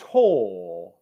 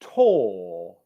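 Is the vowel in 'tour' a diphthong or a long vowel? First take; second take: long vowel; long vowel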